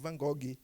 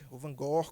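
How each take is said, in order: First: The name ends in a 'gui' sound. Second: The name does not end in a 'gui' sound. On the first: This is how the speaker says it. "Eu chamo de Van Gogh, G U I" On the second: This is how some other people say it. "como dizem alguns"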